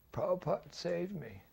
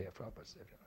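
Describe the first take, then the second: First: High, simple and grateful; high-pitched heartfelt thanks; Pigpen's grateful voice. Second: Said in the usual way. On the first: Retold or imitated. Pigpen repeats his phrase.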